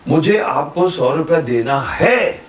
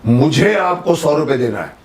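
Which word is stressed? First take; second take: है; मुझे. First: The stress is on है. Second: The stress is on मुझे.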